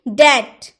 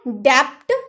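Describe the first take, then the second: First: No b sound is heard before the t. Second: A b sound is pronounced before the t. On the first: The speaker calls it right. "क्या बोलेंगे? डैट" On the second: The speaker calls it wrong. "डैप्ट नहीं होता है, डैप्ट नहीं बोल सकते"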